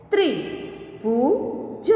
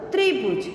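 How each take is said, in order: First: Slow, each sound drawn out, rising at the end; slow drawn-out reading. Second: Said in the usual way. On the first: Shown as a demonstration. Teacher slowly sounding out a word for students, drawn out. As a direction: stretch the word slowly for the class. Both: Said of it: "के उदाहरण हम देखें".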